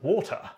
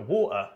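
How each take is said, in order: First: The t is pronounced clearly. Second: The t is replaced by a glottal stop. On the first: It suggests a more upper-class speaker. "a little bit more upper class from received pronunciation" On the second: It suggests a speaker from London or the southeast. "how you pronounce it if you're central London or from the southeast ... You just put an apostrophe where the T was"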